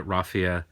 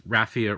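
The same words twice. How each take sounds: First: RAH-fee-uh, open ah vowel; raffia with broad a. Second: RAFF-ee-uh, short a as in cat; raffia with flat a. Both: Shown as a demonstration. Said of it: "I think it's raffia".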